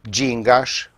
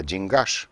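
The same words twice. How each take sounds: First: "gingaș" stressed on the first syllable, GIN-gaș; "gingaș" as GIN-gaș, rising. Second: "gingaș" stressed on the end, gin-GAȘ; "gingaș" as gin-GAȘ, softly; stress on the last syllable. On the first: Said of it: "unde accentul pică pe I". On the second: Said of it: "a migrat accentul pe ultima silabă". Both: Shown as a demonstration.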